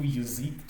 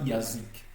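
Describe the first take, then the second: First: Yazik opening on a short "yi" sound, "yi-zik"; reduced first vowel. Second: Yazik mispronounced with a clear open "ya"; full "ya" at the start. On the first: Teacher correcting the reading for learners, yazik begun as "yi". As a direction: shrink the unstressed ya of yazik towards i. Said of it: "mais plutôt yazik". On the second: Teacher showing learners the mistaken reading, yazik with an open "ya". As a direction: say the first vowel of yazik as a full a, "ya-zik". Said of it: "on ne lit pas yazik". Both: Shown as a demonstration.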